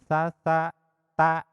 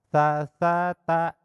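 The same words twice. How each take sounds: First: The syllables are broken apart by pauses. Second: The syllables flow on an even, unbroken beat. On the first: The speaker calls it wrong. "tidak boleh tersendat ... Contohna kieu" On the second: The speaker calls it right. "tiga huruf secara sama ketukanana"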